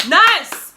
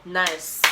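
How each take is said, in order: First: Loud, high burst of approval; excited praise. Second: Said in the usual way. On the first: Retold or imitated. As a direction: exclaim it, far bigger and higher. Repeats praise as an exclamation.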